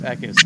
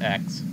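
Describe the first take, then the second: First: The name is said with two syllables. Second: The name is said with one syllable. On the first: The speaker calls it right. "It's Eckes" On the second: The speaker calls it wrong. "not X. I mispronounced it"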